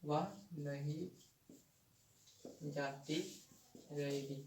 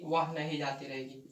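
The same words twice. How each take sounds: First: Softer, slow and spaced, word by word; spaced out, one word at a time, like dictating to a class; slow dictation. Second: Said in the usual way. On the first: Shown as a demonstration. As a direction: read each word out slowly so the class can copy it down. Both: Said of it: "जैसे कि".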